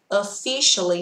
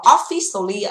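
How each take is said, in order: First: The first syllable 'off' is unstressed. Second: The first syllable 'off' is stressed. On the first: The speaker calls it right. "từ này không nhận trọng âm" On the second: The speaker calls it wrong. "từ này không đọc là officially ạ. Các bạn lại rõ ràng là off đúng không ạ?"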